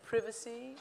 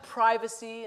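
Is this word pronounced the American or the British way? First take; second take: British; American. First: The word is pronounced the British way. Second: The word is pronounced the American way. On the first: This is the form used elsewhere. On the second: This is the form used in America.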